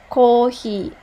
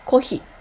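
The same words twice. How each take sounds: First: The first vowel is held long. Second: The first vowel is short. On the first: "With this line" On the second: "Without this line, it sounds like coffee"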